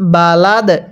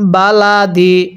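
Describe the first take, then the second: First: The word ends on a bare d consonant. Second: The word ends with a short i vowel. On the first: The reader stops at the end of the verse. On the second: The reading continues without stopping.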